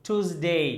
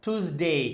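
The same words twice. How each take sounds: The two takes are said the same way.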